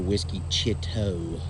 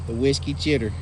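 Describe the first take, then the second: First: The name ends with an 'oh' sound. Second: The name ends with an 'er' sound. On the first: The speaker calls it right. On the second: The speaker calls it wrong.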